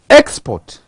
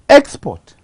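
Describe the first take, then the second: First: The stress is on the first syllable. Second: The stress is on the second syllable. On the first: "I have emphasized the first syllable" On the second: "on the second word, I have emphasized on the second syllable, port"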